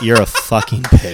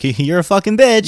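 First: It is said in a serious, hostile tone. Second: It is said in a sarcastic, teasing tone. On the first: It is a real insult. "or like" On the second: It is a joke between friends. "like you can be sarcastic"

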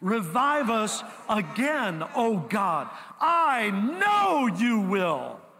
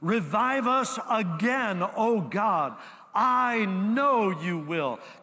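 First: It is read with great, forceful emphasis. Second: It is read plainly, without extra emphasis.

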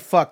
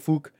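First: The vowel is a short 'uh' sound. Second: The vowel is an 'oo' sound, Irish-like. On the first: "they don't say fuck" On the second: "they say fook"

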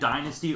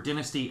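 First: The word is not said the British way. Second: The word is said the British way.

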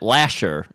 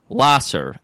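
First: The middle consonant is an sh sound. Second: The middle consonant is an s sound. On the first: "who have to pronounce it Lasher" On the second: "We have a street named Lasser"

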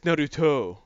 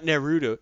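First: The name is said with a Japanese accent. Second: The name is said with an American accent.

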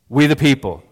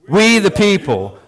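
First: It is said at a plain, even level. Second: It is said with strong, forceful energy. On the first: "Say it with me" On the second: "Now say it like you really mean it"

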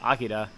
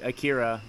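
First: The name is said with a Japanese pronunciation. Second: The name is said with an English pronunciation. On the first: The speaker calls it right. "that's the correct pronunciation" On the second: The speaker calls it wrong. "is what everybody calls it"

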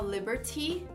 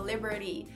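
First: The middle T is a clear T sound. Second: The middle T sounds like a quick R. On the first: "Liberty é uma pronúncia bem britânica" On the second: "esse outro T fica como um R"

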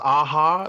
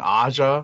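First: The name sounds like the band A-ha. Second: The name does not sound like A-ha. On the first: The speaker calls it right. "I guess it is Aha" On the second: The speaker calls it wrong. "we've been erring on the side of caution and saying [name]"

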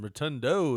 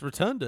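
First: The name ends in an 'oh' vowel. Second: The name ends in an 'ah' vowel. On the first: This is the form many people use. The speaker calls it wrong. "Rotundo is what people call him" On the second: This is the name's actual form. The speaker calls it right. "It's Rotunda is his name"

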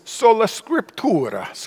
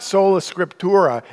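First: It is said in a heavy Italian accent. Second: It is said in a plain, unaccented way. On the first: "the voice has a real heavy Italian accent" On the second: "it's not sola scriptura"

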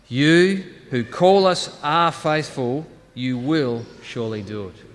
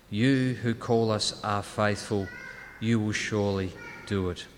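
First: It is said loudly and emphatically. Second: It is said at normal volume.

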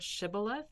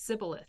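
First: The word begins with a 'sh' sound. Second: The word begins with an 's' sound.

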